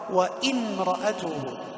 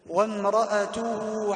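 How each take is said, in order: First: A glottal stop breaks before the m. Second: The w runs straight into the m. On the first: The speaker calls it wrong. "توقف وقرأ همزة قطع" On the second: The speaker calls it right. "يدخل من الواو إلى الميم مباشرة"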